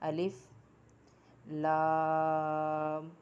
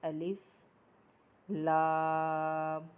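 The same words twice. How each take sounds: No difference in how they are said.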